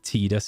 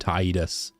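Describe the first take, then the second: First: The two syllables run together smoothly. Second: Said as Tide-us with a slight break. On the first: The speaker calls it right. "Tidus is easier to say" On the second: The speaker calls it wrong. "I gotta kind of briefly pause between Tide and us"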